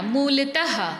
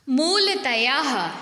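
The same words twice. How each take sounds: First: मूलतः said as "mool-tah"; मूलतः with breathed h, no "yaa". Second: मूलतयाः said slowly as "mool-ta-yaah"; drawn-out मूलतयाः with extra syllable; wrong extra या. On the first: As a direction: end मूलतः straight on "tah". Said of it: "लेकिन या नहीं आता". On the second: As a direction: add a "yaah" to the end of मूलतयाः. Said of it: "ये बिल्कुल गलत शब्द है". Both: Shown as a demonstration.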